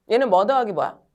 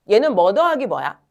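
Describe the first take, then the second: Both takes have the same delivery.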